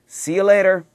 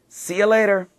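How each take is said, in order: Both takes have the same delivery.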